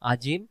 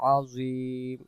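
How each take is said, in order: First: The middle consonant is a plain j sound. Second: The middle consonant is an emphatic, round-lipped z. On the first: The speaker calls it wrong. "এটা জ অক্ষর না হয় জিমে রূপান্তরিত হচ্ছে" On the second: The speaker calls it right. "জ অক্ষরের বেলায় সব সময় মুখটা গোল করে আওয়াজ করব"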